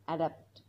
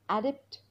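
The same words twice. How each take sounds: First: Adapt with a weaker e; second adapt, lower. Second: Adapt with an open a; first adapt, rising. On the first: (adapt, ए उच्चार) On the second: (adapt, ॲ उच्चार) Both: Shown as a demonstration. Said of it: "एचा आणि ईचा उच्चार वेगवेगळा".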